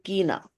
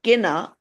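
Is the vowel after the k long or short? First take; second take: long; short. First: The vowel after the k is long. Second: The vowel after the k is short. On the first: The speaker calls it right. "with a line on the I becomes the badi E" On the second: The speaker calls it wrong. "instead of kina"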